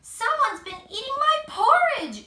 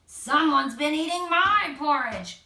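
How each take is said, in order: First: Much higher and louder shriek; shrieking Mama Bear. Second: Louder yell, pitch near normal; yelling Papa Bear. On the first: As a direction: shriek at the empty porridge bowl. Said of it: "she shrieked". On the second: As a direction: bellow at the empty bowl. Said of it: "Papa Bear yelled". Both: A narrator's reading.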